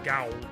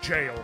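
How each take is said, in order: First: It starts with a hard g, like owl. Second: It starts with a j sound, like mail. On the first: The speaker calls it wrong. "I actually pronounced it gowl" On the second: The speaker calls it right. "was pronounced jail"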